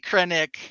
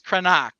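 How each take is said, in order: First: The last syllable sounds like 'ick'. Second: The last syllable sounds like 'ock'. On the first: This is how it is said in the outer regions. "maybe Krennic in the outer rim" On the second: This is the original pronunciation from the capital. "he's Krenok uh, on Coruscant"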